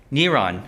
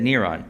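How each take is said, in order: First: Neron said as nee-RON, stress on the last syllable; Neron pronunciation. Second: Neron said again as nee-RON, the last syllable falling; Neron pronunciation. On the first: Pastor showing how Nero's name was said, Neron stressed at the end. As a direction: say Neron with a nasal final on. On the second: Pastor repeating the old name, Neron with a falling end. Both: Shown as a demonstration. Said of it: "that's how they said it".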